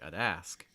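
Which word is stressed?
ask. The stress falls on the second word. "But if you're stressing ask, it's going to sound more like"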